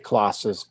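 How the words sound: It is said with a British accent. "In in England they say"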